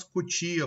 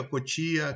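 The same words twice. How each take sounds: First: "cutia" with u in the first syllable; "cutia" opening on an u sound; substituted-sound pronunciation. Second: "cotia" with o in the first syllable; "cotia" opening on an o sound; substituted-sound pronunciation. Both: Shown as a demonstration. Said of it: "substituição de fonemas".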